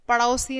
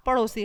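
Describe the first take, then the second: First: "पड़ोसी" with AU for O; wrong diphthong. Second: Said in the usual way. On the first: Shown as a demonstration. Teacher rejects a misspelling, "पड़ोसी" as padausi. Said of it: "पड़ोसी नहीं होता". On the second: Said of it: "पड़ोसी होता है".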